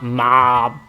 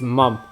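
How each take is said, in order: First: The vowel is an open 'ah' sound. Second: The vowel is a short 'uh' sound. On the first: The speaker calls it wrong. "It's not mom" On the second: The speaker calls it right. "it's mum. Fucking say it right"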